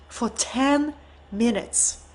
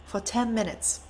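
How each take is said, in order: First: Slow, with "ten" leaned on; stress on ten. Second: "ten" dropped to a near hush, much softer; hushed echo. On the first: Telling how long he stood silent, "ten" stressed slowly. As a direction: drag out "ten" in "for ten minutes". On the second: Repeating the silence for the audience, hushed and soft. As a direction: let "For ten minutes" fall away softly. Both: Shown as a demonstration.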